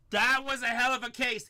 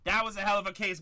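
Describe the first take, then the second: First: Louder, with THAT punched; emphatic repeat. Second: Said in the usual way. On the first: Real, not acted. Breaker repeating praise of the case, louder and emphatic. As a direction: say it again with more punch.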